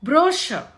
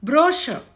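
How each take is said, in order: First: The middle consonant is a sh sound. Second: The same.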